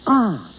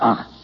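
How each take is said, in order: First: It sounds pleased and relieved. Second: It sounds doubtful and disbelieving.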